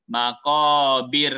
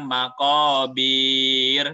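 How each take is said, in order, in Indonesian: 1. Suku kata terakhir dipotong pendek. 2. Suku kata terakhir dibaca panjang. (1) "tapi pendek bacanya" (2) "jangan dibaca panjang maqabir"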